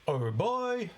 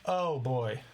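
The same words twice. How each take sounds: First: The pitch rises at the end. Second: The pitch falls at the end. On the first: It sounds like a question. The speaker calls it wrong. "going up" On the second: It is a plain exclamation. The speaker calls it right. "sung how you might say it"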